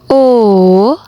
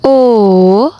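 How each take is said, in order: First: The vowel carries the third tone. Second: The same.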